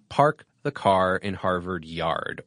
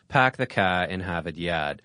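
First: It is said in a general American accent. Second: It is said in a Boston accent, R's dropped.

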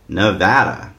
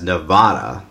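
First: It is said in a Californian way. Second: It is said in an East Coast way. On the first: The speaker calls it right. "make him say Nevada" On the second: The speaker calls it wrong. "like an East Coaster"

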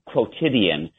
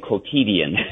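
First: The word has an English-style pronunciation. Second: The word has a French-style pronunciation. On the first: The speaker calls it right. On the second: The speaker calls it wrong.

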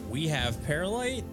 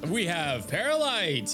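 First: It sounds unsure and questioning. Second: It sounds confident and triumphant. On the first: The speaker doubts it is true. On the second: The speaker celebrates that it is true.

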